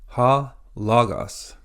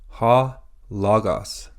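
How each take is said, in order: No difference in how they are said.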